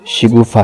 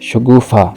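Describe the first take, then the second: First: The first vowel is an 'i' sound. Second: The first vowel is an 'a' sound. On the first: The speaker calls it right. "दुरुस्त लफ्ज़" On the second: The speaker calls it wrong. "लफ्ज़ बोलते हैं"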